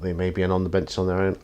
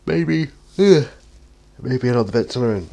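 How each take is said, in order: First: Said in the usual way. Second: Real yawn, pitch and volume jump up. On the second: Real, not acted. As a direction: talk through a big yawn, higher and louder. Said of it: "Sorry, I, I yawn".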